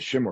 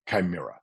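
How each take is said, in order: First: The word is said as two syllables. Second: The word is said as three syllables. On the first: The speaker calls it wrong. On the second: The speaker calls it right.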